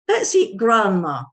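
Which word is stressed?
grandma. The stress falls on the word grandma. The speakers plan to eat their grandmother. "You can see the stress is on grandma"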